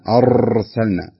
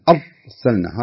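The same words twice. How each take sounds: First: The r is trilled too long and strongly. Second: The r is held tight with no trill. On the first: "يبالغ فيها" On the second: "يمسك على الراء بقوة"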